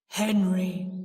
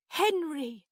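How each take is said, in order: First: Loud, deep ghostly announcement; deep, haunting declaration. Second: High, loud, startled cry of a name; fearful, high-pitched exclamation; frightened. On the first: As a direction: intone the name like a spectre. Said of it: "in the same deep voice". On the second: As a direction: cry out to a ghost in alarm. Frightened aunt addresses the ghost. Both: A narrator's reading.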